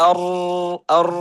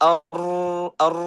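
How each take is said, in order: Both takes have the same delivery.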